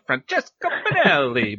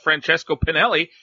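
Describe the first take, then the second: First: The name is said in an Italian accent. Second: The name is said in a plain English accent.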